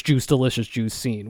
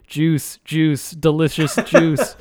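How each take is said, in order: First: Said in the usual way. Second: Slow, stiff robot butler voice; robot voice, words dragged out slowly. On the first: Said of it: "being a fucking tyrant". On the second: Retold or imitated. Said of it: "in, like, a robot voice".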